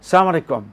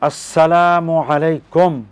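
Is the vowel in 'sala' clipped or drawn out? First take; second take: clipped; drawn out. First: The 'la' vowel is short and clipped. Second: The 'la' vowel is drawn out long. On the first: May you die. The speaker calls it wrong. "এই অশুদ্ধ উচ্চারণ করে সালাম দেওয়া যাবে না" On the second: Peace be upon you. The speaker calls it right. "আসসালা বলে টান দিলেন এবং উচ্চারণটা সঠিক হলো"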